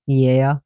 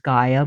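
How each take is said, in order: First: The name is said with a Greek pronunciation. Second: The name is said with an English pronunciation. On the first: This is how it is said in Greek. "but it's pronounced Gaia in Greece" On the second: This is how it is said locally in English. "which is Gaia"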